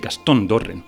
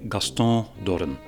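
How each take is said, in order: First: The name is said with a Spanish pronunciation. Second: The name is said French-style, with a nasal ending. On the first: "And in Spanish, they would say" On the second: "Personally, I say ... you dropped the N at the end ... I made it nasal"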